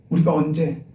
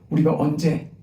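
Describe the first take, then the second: No difference in how they are said.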